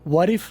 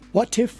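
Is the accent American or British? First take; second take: American; British. First: It is said with an American accent. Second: It is said with a British accent.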